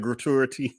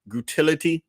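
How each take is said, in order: First: The word is said without an added 'l' syllable. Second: The word is said with an added 'l' syllable. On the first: "not the gratuity" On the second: "I pronounce it like she pronounces it"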